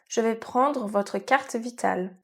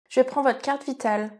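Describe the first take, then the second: First: It is said at a slower pace. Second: It is said at a fast pace.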